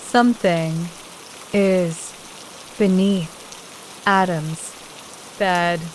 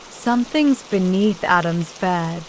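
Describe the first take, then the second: First: Something, is, beneath, Adam's, bed, each word set apart by a pause. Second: Said in the usual way. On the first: Acted. Repeats it word by word.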